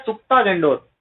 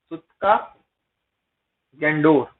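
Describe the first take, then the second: First: Said in the usual way. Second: सुक्ता, a long pause, then Dor dropping lower; सुक्ता Dor split slowly for learners; broken-up repetition. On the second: Shown as a demonstration. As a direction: dictate सुक्ता Dor one word at a time. Teacher repeats place name in parts.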